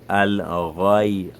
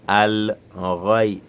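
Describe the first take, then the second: No difference in how they are said.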